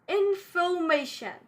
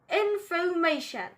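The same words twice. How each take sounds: First: The R after the vowel is silent. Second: The same.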